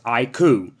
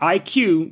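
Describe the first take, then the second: First: The name ends in a 'koo' sound. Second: The name ends in a 'cue' sound. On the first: The speaker calls it right. "that's how it's pronounced" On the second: The speaker calls it wrong. "Not I Q, which is what I always thought it was"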